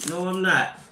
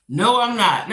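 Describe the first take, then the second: First: Said in the usual way. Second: Louder, insistent denial; firmer repeat. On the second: Real, not acted. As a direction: dig in and mean it this time. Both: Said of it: "I'm not gonna let that bother me".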